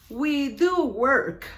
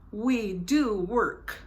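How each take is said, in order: First: "do" hit loud and slow; slow, loud emphatic "We do work"; stress on do. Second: "do" stressed, slow and even; slow "We do work" with weight on "do"; measured emphatic "We do work". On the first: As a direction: lean hard on "do" in "We do work". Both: Shown as a demonstration.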